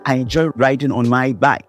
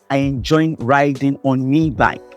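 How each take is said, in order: First: The word before bike sounds like my. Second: The word before bike sounds like me. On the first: This is the standard English form. "Instead of saying" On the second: This marks a Caribbean Creole identity. "you will hear him saying"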